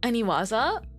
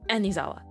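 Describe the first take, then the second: First: The syllables run a-ni-wa-za. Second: The syllables run a-ni-za-wa. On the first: The speaker calls it right. "I will read Aniwaza" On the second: The speaker calls it wrong. "I say Anizawa"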